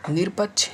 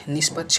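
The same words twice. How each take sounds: First: निरपक्ष with r before paksh; wrong form. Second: निष्पक्ष with a sibilant before paksh; corrected form. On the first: Teacher shows the error, निरपक्ष with an r. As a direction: sound an r in निरपक्ष. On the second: Teacher corrects students, निष्पक्ष with sh sound. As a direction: replace r with sh in निष्पक्ष. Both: Shown as a demonstration. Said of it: "का सही शुद्ध रूप होगा".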